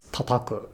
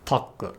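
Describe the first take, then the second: First: Said in the usual way. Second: Taku, tataku with one ta missing; wrongly dropped syllable. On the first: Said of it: "which is never pronounced as taku". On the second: Shown as a demonstration. Teacher showing a form never used, taku with a syllable dropped. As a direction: drop a ta from tataku so only taku is left. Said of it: "which is never pronounced as".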